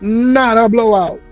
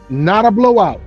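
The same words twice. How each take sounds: First: It is said in an imitated comedian's voice. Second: It is said in his ordinary speaking voice.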